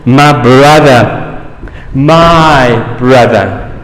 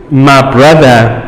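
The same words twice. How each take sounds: First: "my brother, my brother", the second very slow; tender, slow repetition; slow repeated emphasis. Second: "my brother" said as a personal claim; emphatic "my brother". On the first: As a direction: draw out "my brother" slowly, pleading. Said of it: "In other words". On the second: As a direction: stress on "my" in "my brother". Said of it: "is more apathetical than the first one". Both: Shown as a demonstration.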